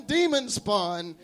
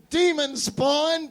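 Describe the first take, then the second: First: Said in the usual way. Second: Slow, high, drawn-out accusing yell. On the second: Acted. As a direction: point and cry out at the demon.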